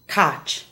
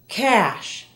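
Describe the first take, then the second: First: The word ends with a hard ch sound. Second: The word ends with a soft sh sound. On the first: The speaker calls it wrong. "not cach" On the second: The speaker calls it right.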